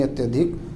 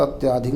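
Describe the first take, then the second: First: अत्यधिक with a short अ after त्य, said as the right one; correct form. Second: अत्याधिक with a long आ after त्य, marked as wrong; wrong form. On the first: (सही रूप: अत्यधिक, त्य के बाद छोटा अ) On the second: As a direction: say अत्याधिक with the extra आ, as the mistake. (गलत रूप: अत्याधिक, त्य के बाद आ) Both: Shown as a demonstration. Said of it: "अत्याधिक नहीं".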